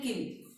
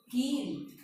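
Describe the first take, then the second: First: किल with a brief i; short i. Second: कील with a stretched ee; long i. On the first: Teacher introducing the pair, किल with short i. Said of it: "छोटी ई है तो उसके उच्चारण में कम समय". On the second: Teacher introducing the pair, कील with long ee. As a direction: hold the ee in कील. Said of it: "बड़ी ई है तो उसके उच्चारण में अधिक समय". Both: Shown as a demonstration.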